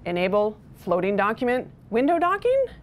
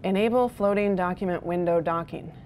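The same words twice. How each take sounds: First: The phrase is broken up by short pauses. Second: The phrase runs together without any pauses.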